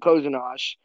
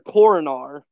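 First: The name has zh-like sounds in it. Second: The name has plain r sounds in it. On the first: This is how the player's name is actually said. The speaker calls it right. "Tyson Ass calls him Kozinosh" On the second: This is how the name looks from its spelling. The speaker calls it wrong. "it looks like on paper Coronar"

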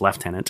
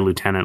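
First: It is said the British way, lef-tenant. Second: It is said the American way, loo-tenant.

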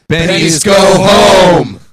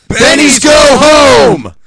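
First: It is said softly, without much force. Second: It is shouted angrily, with great force. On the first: "That was too soft" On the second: "Summon your anger"

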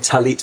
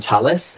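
First: The word ends with a t sound. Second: The word ends with an s sound.

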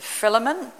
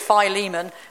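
First: The first syllable sounds like "fill". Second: The first syllable does not sound like "fill". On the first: The speaker calls it right. "Said it right, Bethany? ... it's got to be a phil" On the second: The speaker calls it wrong. "So many people have told me down the years it's Philemon. It's not"

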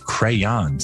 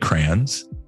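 First: It is pronounced the way it is spelled. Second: It uses a regional Michigan pronunciation. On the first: This matches the spelling of the word. "It's how it's spelled" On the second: This is how people said it where the speaker grew up. "Growing up in Michigan, we said crayons"

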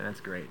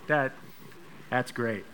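First: It is said in a mocking, sarcastic tone. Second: It is said warmly and sincerely. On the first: The giving is not actually impressive. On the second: The giving is genuinely appreciated.

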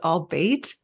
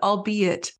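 First: It is said as two syllables, all-bait. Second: It is said as three syllables, al-be-it. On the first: The speaker calls it wrong. "I thought it was all bait" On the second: The speaker calls it right. "And they said"

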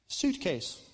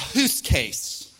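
First: The word begins with an s sound. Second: The word begins with an h sound. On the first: The speaker calls it right. "So the word suitcase" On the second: The speaker calls it wrong. "she's saying it wrong"

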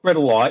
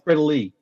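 First: The final vowel sounds like 'eye'. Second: The final vowel sounds like 'ee'. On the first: The speaker calls it wrong. "It's not Bredeli" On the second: The speaker calls it right. "A single I on the end of the name is pronounced a fucking E"

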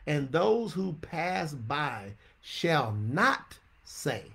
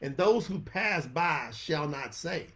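First: It is read slowly. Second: It is read at normal speed.

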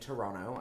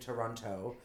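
First: The second T sound is dropped. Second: Both T sounds are clearly pronounced. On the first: The speaker is Canadian. "you can tell I'm Canadian because I say Toronto" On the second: The speaker is not Canadian. "I don't say Toronto. The minute you hear the two T's, you know they're not Canadian"

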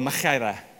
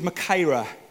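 First: The word is said in a Welsh-style way. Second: The word is said in a plain way.

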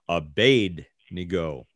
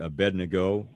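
First: The name is pronounced in a Babylonian way. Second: The name is pronounced the usual English way. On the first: "The Babylonian pronunciation will be Abednego" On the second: "We call it Abednego"

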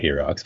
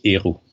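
First: It starts with an h sound and ends in ks. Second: It starts with a vowel and has no ks ending. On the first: The speaker calls it wrong. "it's not he rocks" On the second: The speaker calls it right. "you don't say the H, ... you don't even mention it. So it's just the middle letters"

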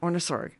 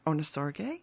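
First: The final syllable of the name is dropped. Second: The final syllable of the name is pronounced. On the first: The speaker calls it right. "You don't need to hit the last syllable" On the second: The speaker calls it wrong. "Did I do okay?"

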